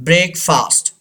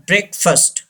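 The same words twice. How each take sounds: First: "breakfast" ending in a full fahst; mispronunciation. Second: "breakfast" said as BREK-fust; correct pronunciation. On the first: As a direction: say "breakfast" with an open a in -fast. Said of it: "ये गलत है". ("breakfast" का गलत उच्चारण, अंत में "फ़ास्ट") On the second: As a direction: say "breakfast" with a short schwa in -fast. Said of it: "The actual pronunciation of this word". ("breakfast" का सही उच्चारण, "ब्रेकफ़स्ट") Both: Shown as a demonstration.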